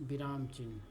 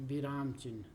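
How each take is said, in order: Both takes have the same delivery.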